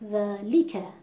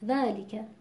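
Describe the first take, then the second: First: The middle l syllable is pushed with heavy stress. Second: The middle l and its vowel are clipped short. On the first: "بخوام فشار بیارم روی حرف ل"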